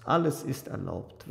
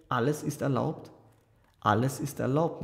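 First: "Alles ist erlaubt" as a falling statement; forced assent. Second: "alles ist erlaubt" with a rising, questioning end. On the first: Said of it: "Iwan lächelte gezwungen". („Alles ist erlaubt“ als Zugeständnis, fallend) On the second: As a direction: lift "erlaubt" as a probing question. Aljoscha asks, pressing his brother. („alles ist erlaubt“ fragend, am Ende steigend) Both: A narrator's reading.

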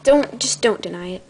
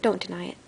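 First: Said in the usual way. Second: Unvoiced, soft, teasing whisper. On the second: Shown as a demonstration. Telling viewers not to deny it, in a whisper. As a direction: breathe it like a secret. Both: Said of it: "repeated with whisper".

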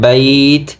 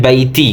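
First: "বাইত" stopped on the t with no vowel after; drawn glide in "বাইত", ending at the t; correct pausal pronunciation. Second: "বাইতি" with an added final i; spoken "বাইতি", ending on a vowel; common mispronunciation. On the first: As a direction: close "বাইত" on a bare t. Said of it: "ওকফ করলে উচ্চারণ হয়". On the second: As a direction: sound a clear i after the t in "বাইতি". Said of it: "আমরা অনেকে বলি". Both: Shown as a demonstration.

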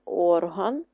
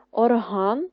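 First: ОРган, slow with stressed start; OR-han, slow, weight up front; stress on first syllable. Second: ОрГАН, slow and loud; or-HAN, slow, weight at the end; stress on last syllable. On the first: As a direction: draw out ОР in орган. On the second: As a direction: stretch ГАН at the end of Орган. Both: Shown as a demonstration. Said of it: "Поставити наголос у вставлених словах".

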